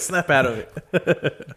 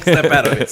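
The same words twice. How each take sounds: First: Slow laughing drawl. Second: Said in the usual way. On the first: Shown as a demonstration. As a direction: drag it out through a laugh.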